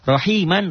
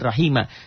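First: The word ends with a nasal 'an' sound. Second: The word ends with a long open 'a' sound. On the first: The reading continues without stopping. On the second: The reading stops on this word.

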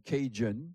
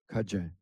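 First: It is said with an English pronunciation. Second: It is said with a Cajun French pronunciation. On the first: An outsider's name for the people. The speaker calls it wrong. "c'est les Anglais, les Anglo-Américains qui nous ont traités de Cajun" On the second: The people's own name for themselves. The speaker calls it right. "nous sommes des Cadiens et on le prononce Cajun"

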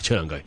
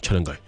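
First: It is said in a light, casual manner. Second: It is said in a sneaky, secretive manner. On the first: The speaker wants a favour without sounding serious. "因为那件事不想太严肃" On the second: The speaker wants to share juicy gossip. "通常我都系鬼鬼祟祟"

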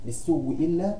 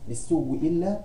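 First: The vowel before the doubled w is short. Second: The same.

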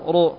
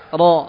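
First: The ra is said with the lips rounded. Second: The ra is said with the mouth open. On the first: The speaker calls it wrong. "Bukan dengan cara dimoncongkan bibirnya" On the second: The speaker calls it right. "ketika membaca huruf yang di fathah untuk dibuka mulutnya"

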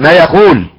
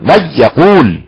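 First: The doubled sound loses its stress. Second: The doubled sound is held with clear stress. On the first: The speaker calls it wrong. "ضع نبره المشدد هذا خطا ايضا" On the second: The speaker calls it right. "نبره المشدد اهي"

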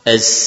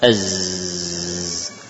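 First: The final sound slides into a hissing s. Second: The final sound stays a buzzing z. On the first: The speaker calls it wrong. "Az awalnya sin tapi berikutnya apa? Sin" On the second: The speaker calls it right. "Harusnya gimana?"

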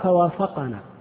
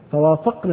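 First: The qaf carries a short 'a' vowel. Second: The qaf is silent, with no vowel. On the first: The Prophet agreed with them. The speaker calls it wrong. "لو قرأنا فوافقنا ايش يكون النبي؟ كلمة النبي فاعل" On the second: They agreed with the Prophet. The speaker calls it right. "اذا تقرأ هكذا"

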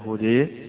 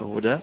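First: The final vowel is fully fronted toward e. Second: The final vowel is an open a sound. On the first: This is the reading of a few reciters. "بالإمالة هدى حمزة والكسائي وخلف" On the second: This is the reading of most reciters. "قراءة الفتح هدى بالوقف للجمهور"

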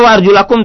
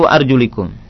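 First: The vowel after arjul is an a sound. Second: The vowel after arjul is an i sound. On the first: This is the original accusative reading. "Asalnya wa arjulakum" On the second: This is the genitive reading by proximity. "tetapi dibaca menjadi wa arjulikum"

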